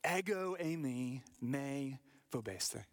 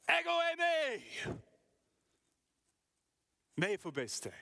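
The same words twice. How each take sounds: First: Said in the usual way. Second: High, loud, ringing call; shouted over the storm. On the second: Shown as a demonstration. Jesus shouting to his frightened disciples over the sea. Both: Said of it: "But more like".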